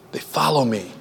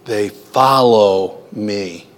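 First: Much softer repeat, "follow" falling gently; soft echo. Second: Slow, leaning on "follow"; slow emphatic reading. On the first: Preacher echoing the verse back to his congregation, soft and quiet. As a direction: let it drop quietly, almost to yourself. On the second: Preacher reciting the verse to his congregation, slow and stressed. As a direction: draw each word out and land hard on "follow". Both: Shown as a demonstration. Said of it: "and what?".

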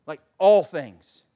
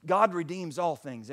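First: "all" punched loud and drawn out; slow down and hit "all" hard; stress on "all". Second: Said in the usual way. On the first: Real, not acted. Preacher driving the point home, stress on "all".

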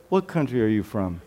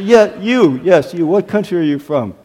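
First: Soft, lowered, careful asking; gentle polite question. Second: Pointed, brisker and firmer asking; single them out, then press the question; insistent retold question. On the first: Retold or imitated. Pastor trying not to embarrass a visitor, soft and careful. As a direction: ask delicately, keeping it low. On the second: Pastor picking out a puzzled first-time visitor, insistent.

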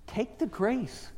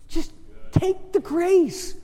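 First: Slow, hushed urging; soft appeal. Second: High, slow, drawn-out plea; forceful appeal. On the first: Preacher to wound-up congregation, soft appeal. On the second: Preacher urging congregation to accept, forceful appeal. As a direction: raise the pitch and stretch each word. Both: Real, not acted.

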